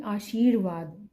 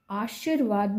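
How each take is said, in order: First: आशीर्वाद slowly, with a long शी; correct long vowel. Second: आशीर्वाद with a short शि, as aashirvaad; wrong short vowel. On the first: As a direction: stretch शी in आशीर्वाद. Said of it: "बड़ी ई वाले". (आशीर्वाद में 'शी' लंबा बोलें) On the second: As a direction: clip शी to शि in आशीर्वाद. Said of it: "आशीर्वाद नहीं". (आशीर्वाद में 'शि' छोटा बोलें) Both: Shown as a demonstration.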